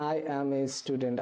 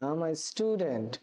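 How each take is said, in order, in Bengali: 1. 'I am' দুটি পূর্ণ শব্দ হিসেবে বলা হয়। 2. 'I am' সংকুচিত হয়ে একটি সিলেবলে বলা হয়। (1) "নরমাল ভাবে বলি ... এটা শুনতে একটু awkward লাগে" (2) "এইভাবে বলি ... শুনতে ... ভালোই রয়েছে"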